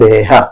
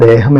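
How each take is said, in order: First: The word ends on a vowel, without m. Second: The word ends with a final m sound. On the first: This is the Kannada form. "അവർ ദേഹ" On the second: This is the Malayalam form. "നമ്മൾ ദേഹം എന്ന് പറയുമ്പോൾ"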